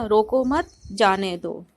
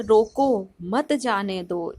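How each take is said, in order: First: "रोको मत" together, stop, then "जाने दो"; pause after मत. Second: "रोको", stop, then "मत जाने दो" together; pause after रोको. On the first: Teacher showing the opposite meaning, pause after "मत". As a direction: hold the break until after "मत", then "जाने दो". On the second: Teacher showing pauses change meaning, pause after "रोको". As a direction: break straight after "रोको", keeping "मत" with "जाने दो". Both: Shown as a demonstration. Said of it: "कितना उस पे स्टॉप कर रहे हैं".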